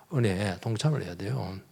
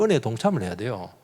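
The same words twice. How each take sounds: First: 동참을 leaned on, much softer; quiet echo with weight on 동참을; soft repeat. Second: Said in the usual way. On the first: Shown as a demonstration. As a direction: let it sink in quietly.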